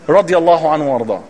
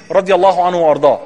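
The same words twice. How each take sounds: The two takes are said the same way.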